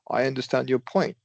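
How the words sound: The stress is on the word point.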